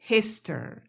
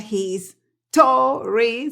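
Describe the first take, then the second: First: The word runs together, with the O reduced. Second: The word is split, with a full O vowel. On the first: The speaker calls it right. "se pronuncia history" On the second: The speaker calls it wrong. "no se pronuncia his, story"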